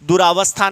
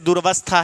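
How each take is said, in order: First: A long 'aa' vowel is heard after 'dur'. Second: No long vowel is heard after 'dur'. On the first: The speaker calls it wrong. "दुरावस्था नहीं होता" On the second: The speaker calls it right. "दुर्वस्था होता है दोस्तों"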